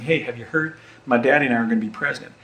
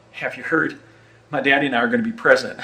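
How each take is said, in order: First: Mock proud young Texan, rushed; a second, more committed take; imitating young George W. Bush. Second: Mock boastful young Texan, rushed; quick mock announcement, a bit breathless; imitating young George W. Bush. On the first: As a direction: brag it table to table, fast. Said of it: "That was what I was going for there". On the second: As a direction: blurt it out like an excited young heir. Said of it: "let me try that again".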